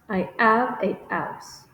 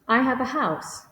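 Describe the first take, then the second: First: The h sounds at the word starts are dropped. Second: The h sounds at the word starts are pronounced.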